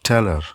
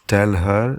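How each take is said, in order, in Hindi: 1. h छोड़ दिया जाता है और शब्द आपस में जुड़ जाते हैं। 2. 'her' में h पूरा बोला जाता है। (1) "दे यूज़" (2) "इंस्टेड ऑफ सेइंग"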